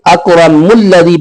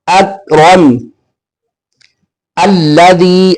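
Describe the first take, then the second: First: The two words run together without stopping. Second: It stops after the first word, then restarts. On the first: "अगर हम मिला के पढ़ेंगे" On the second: "इसलिए हम यहां पे वक्फ कर देंगे"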